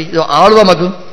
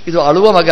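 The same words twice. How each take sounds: First: ಆಳುವ with a drawn-out opening "aa"; long first vowel. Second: ಅಳುವ with a short opening "a"; short first vowel. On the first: (ಆಳುವ ಪದದ ಮೊದಲ ಅಕ್ಷರ ಎಳೆದ ದೀರ್ಘ "ಆ") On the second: (ಅಳುವ ಪದದ ಮೊದಲ ಅಕ್ಷರ ಹ್ರಸ್ವ "ಅ") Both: Shown as a demonstration. Wordplay on short versus long vowel.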